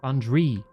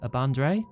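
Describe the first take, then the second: First: The last syllable is said like 'dree'. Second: The last syllable is said like 'dray'. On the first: The speaker calls it right. "Bandri, not Dre. Dree" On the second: The speaker calls it wrong. "I've probably pronounced that"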